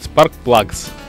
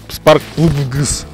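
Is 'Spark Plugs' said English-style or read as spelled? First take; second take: English-style; spelling-based. First: It is said with English pronunciation. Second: It is read out the way it is spelled. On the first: The speaker calls it right. "А как правильно говорят" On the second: The speaker calls it wrong. "написано было что-то Spark Plugs"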